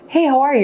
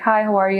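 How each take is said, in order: First: The greeting sounds warm and upbeat. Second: The greeting sounds flat and uninterested.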